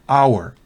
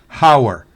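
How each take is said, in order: First: The h sound is silent. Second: The h sound is pronounced. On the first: The speaker calls it right. "sino hour" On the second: The speaker calls it wrong. "no es hour"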